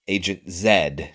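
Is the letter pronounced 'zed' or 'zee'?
zed. The letter is pronounced as zed. "there's Agent Z"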